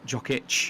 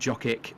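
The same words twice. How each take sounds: First: The name ends with a ch sound. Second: The name ends with a hard k sound. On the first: The speaker calls it right. "if they end in a C, a lot of the times it's pronounced ch" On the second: The speaker calls it wrong. "rather than"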